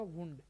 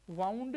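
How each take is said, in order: First: वुंड with an "oo" vowel; वुंड with oo in place of ow; pronunciation for injury. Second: वाउंड with an "ow" diphthong; वाउंड as "wownd"; contrasted pronunciation. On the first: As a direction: say वुंड like "woond". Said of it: "तब ये बोला जाएगा वुंड". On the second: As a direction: say वाउंड rhyming with "sound". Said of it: "यदि ये वाउंड नहीं हो". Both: Shown as a demonstration.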